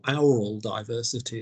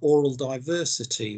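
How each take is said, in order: First: The word 'aural' starts with an 'ow' sound. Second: The word 'aural' does not start like 'owl'.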